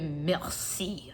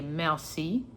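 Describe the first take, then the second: First: The word is said with an R sound. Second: The word is said without an R sound. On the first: "I don't even say uh" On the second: "I say merci without the R"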